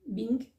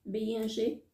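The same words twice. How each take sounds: First: Said in the usual way. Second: "B I N G" spelled out, each letter said separately. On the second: Shown as a demonstration. Vlogger spelling "B I N G" for her viewers, letter by letter.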